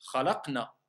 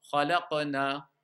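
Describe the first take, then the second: First: Khalaqna with the qaf held flat and silent, no echo; without qalqala. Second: Slow Khalaqna with a clear bouncing echo on the qaf; with qalqala. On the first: Teacher showing students the wrong way, qaf swallowed flat. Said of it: "lorsqu'on va enlever la règle de l'qalqala". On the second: Teacher showing students the rule applied, qaf bouncing clearly. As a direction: draw out Khalaqna and let the qaf rebound lightly. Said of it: "Si maintenant j'applique la règle de l'qalqala". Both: Shown as a demonstration.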